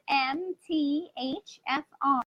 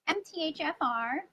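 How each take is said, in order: First: The letters are spelled out slowly. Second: The letters are run together quickly. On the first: "I can say it slower" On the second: "I tend to say it quick"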